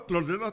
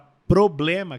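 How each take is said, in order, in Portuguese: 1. É dita com t, d e n no lugar. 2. É dita com os sons normais de p, b e m. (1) "B substitui pela letra D de dado e o M, ma, pelo N de navio" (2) "que tem uma plosiva de pá"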